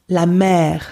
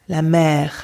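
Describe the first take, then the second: The two takes are said the same way.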